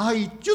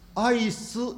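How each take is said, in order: First: The final syllable starts with a 'ch' sound. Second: The final syllable starts with an 's' sound. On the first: The speaker calls it wrong. "アイチュって言ってるんですね" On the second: The speaker calls it right. "アイスじゃなくて"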